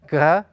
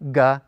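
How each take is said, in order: First: The first consonant lets air flow through. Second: The first consonant fully stops the airflow. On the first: "When they're soft, you force more air through your mouth" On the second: "By hard, it means that when you're pronouncing them, you will typically stop the flow of air"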